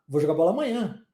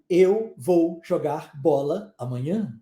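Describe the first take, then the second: First: The words are run together in connected speech. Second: The words are said separately and carefully. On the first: The speaker calls it right. "Como é que eu falo? ... existe uma junção de um monte de palavra" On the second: The speaker calls it wrong. "eu não digo"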